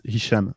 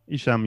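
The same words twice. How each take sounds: First: The name is said with Arabic sounds. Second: The name is said with English-style sounds.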